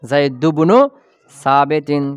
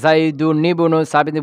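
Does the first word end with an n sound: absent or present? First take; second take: absent; present. First: The first word ends without an n sound. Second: The first word ends with an n sound. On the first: "তানবিনকে হযফ করা যায় যাচ্ছে হযফ করে দিয়ে" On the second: "বলতে পারবা"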